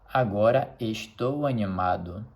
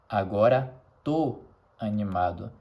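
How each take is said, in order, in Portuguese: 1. O verbo é dito na forma completa, 'estou'. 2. O verbo é reduzido à única sílaba 'tô'.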